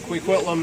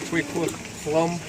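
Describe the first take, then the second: First: The name is said with a common English pronunciation. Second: The name is said with a Halkomelem pronunciation. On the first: The speaker calls it wrong. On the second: The speaker calls it right.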